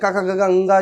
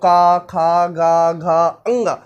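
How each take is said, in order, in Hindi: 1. अक्षर बिना रुके, जल्दी-जल्दी एक साथ बोले जाते हैं। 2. हर अक्षर धीरे-धीरे बोला जाता है, बीच में रुकते हुए। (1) "स्पीड में पढ़ना पड़ेगा" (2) "ऐसे उच्चारण करते हो ना थोड़ा रुक रुक रुक करके"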